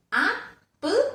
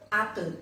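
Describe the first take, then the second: First: "apple" broken as ap, pul, pitched high; split into syllables. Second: Said in the usual way. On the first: Shown as a demonstration. Teacher repeats the two parts, syllable by syllable. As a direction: sound out "apple" in two spaced raised beats. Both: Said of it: "broken into two different parts".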